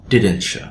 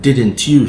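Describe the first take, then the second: First: The t and y merge into ch. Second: The t and y are said separately. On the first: "we change the y sound and it becomes sh" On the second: "instead of didn't you"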